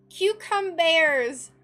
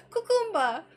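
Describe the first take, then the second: First: "cucumbers!" called out loud and drawn out slowly; loud exclamation. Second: "Cucumba!" said high and loud with no final r, as in the Cucumba song; song pronunciation. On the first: Real, not acted. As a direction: shout "cucumbers!" long and slow, fed up with the glut. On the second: Retold or imitated. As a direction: sing out "Cucumba!" the way the Maccabee song says it. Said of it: "Cucumba song".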